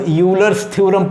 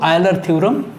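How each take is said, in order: First: The name begins with a 'yoo' sound. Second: The name begins with an 'eye' sound. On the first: The speaker calls it wrong. "कुछ लोग इसको यूलर्स theorem पढ़ लेते हैं" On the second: The speaker calls it right. "बताया जाता है कि ये आयलर प्रमेय इसका उच्चारण है"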